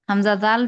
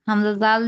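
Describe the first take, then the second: The two takes are said the same way.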